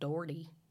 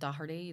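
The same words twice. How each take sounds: First: The name is said the American way. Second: The name is said the Irish way.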